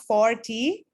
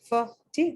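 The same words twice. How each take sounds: First: 'For' is said fully with its full vowel. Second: 'For' is reduced to a weak schwa sound. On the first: "not for T" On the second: "put a schwa over there and make it sound f"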